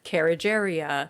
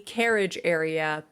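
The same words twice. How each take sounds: First: The two words are said fast and blurred together. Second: The two words are said clearly and separately. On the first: "When you say it fast enough and you say it often enough" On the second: "it starts to not really be carriage area"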